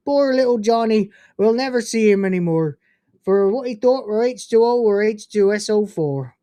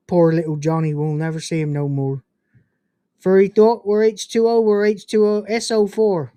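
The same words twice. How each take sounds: First: Hammed-up Cornish farmer reciting; Cornish accent. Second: A hint of Cornish accent, recited evenly; half-hearted go at a Cornish accent; tentative Cornish accent. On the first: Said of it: "in a Cornish accent". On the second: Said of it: "I hope I did the accent okay". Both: Shown as a demonstration.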